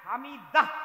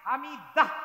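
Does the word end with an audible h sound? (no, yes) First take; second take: yes; yes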